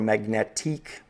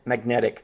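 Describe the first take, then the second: First: The ending is said the French way. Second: The ending is said the plain English way.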